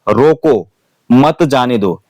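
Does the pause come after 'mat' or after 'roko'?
after roko. There is a pause right after the first word. Stop this person; do not let them go. "रोको के बाद में अगर comma लगाता हूं"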